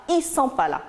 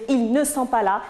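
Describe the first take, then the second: First: "ils sont pas là" with "ils" cut to "i"; familiar reduced form. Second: "ils ne sont pas là" with the L of "ils" and "ne" sounded; full negation form. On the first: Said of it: "Au lieu de dire ils ne sont pas là". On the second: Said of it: "Au lieu de dire". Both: Shown as a demonstration.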